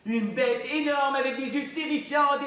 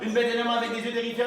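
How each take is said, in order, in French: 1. Elle est lue à un rythme modéré et expressif. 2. Elle est lue très vite, en bousculant les mots. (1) "c'était mieux que ma première lecture?" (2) "comme une voiture de course"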